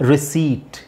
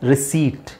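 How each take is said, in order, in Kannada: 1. "p" ಶಬ್ದ ಬಿಡಲಾಗುತ್ತದೆ. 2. "p" ಶಬ್ದ ಬಿಡಲಾಗುತ್ತದೆ.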